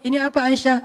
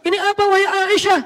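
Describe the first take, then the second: First: It is said in a soft, gentle storytelling tone. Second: It is said in a loud, preachy sermon tone.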